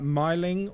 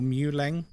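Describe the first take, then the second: First: The first syllable sounds like 'my'. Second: The first syllable sounds like 'moo'. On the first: The speaker calls it wrong. "Not Myling" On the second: The speaker calls it right. "Muleng or Mealing is the proper pronunciation"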